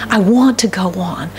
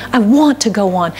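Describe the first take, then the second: No difference in how they are said.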